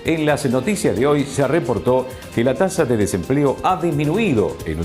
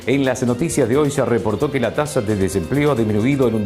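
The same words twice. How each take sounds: First: Key phrases are stressed with added emphasis. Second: It is read in an even, neutral voice. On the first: The most important facts are highlighted. "darle un poco de énfasis y remarcar las frases más importantes" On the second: The listener focuses only on the information. "la expresión vocal es neutral y no hay una entonación específica"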